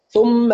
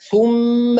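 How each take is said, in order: First: The vowel is rushed and clipped short. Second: The vowel is given its normal full length. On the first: The speaker calls it wrong. "أختلس يعني أقرأ الضمة بسرعة" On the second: The speaker calls it right. "ضم محقق"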